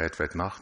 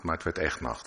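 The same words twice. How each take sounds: First: Said in the usual way. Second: Echt leaned on with a falling tune; stress on echt. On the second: Shown as a demonstration. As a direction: land hard on the word echt. (nadruk op echt, met dalende toon) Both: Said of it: "Staat er zo even".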